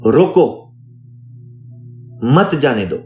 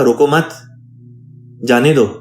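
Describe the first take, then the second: First: The pause comes after the first word, roko. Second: The pause comes after the second word, mat.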